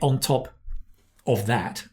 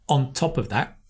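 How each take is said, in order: First: The words are said separately, with breaks. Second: The words run together as one linked piece. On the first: The speaker calls it wrong. "Don't say on top of that" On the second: The speaker calls it right. "get the chunk"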